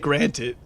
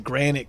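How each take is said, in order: First: It is said plainly, ending in '-ted'. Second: It is said in a southern accent, like 'granite'. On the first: "he'd always say granted" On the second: "he'd pronounce it granite because he had like a an accent"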